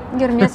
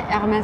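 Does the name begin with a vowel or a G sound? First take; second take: G sound; vowel. First: The name starts with a G sound. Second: The name starts with a vowel sound. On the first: The speaker calls it wrong. "это боль моих ушей" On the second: The speaker calls it right. "Правильно, по-французски Эрмес"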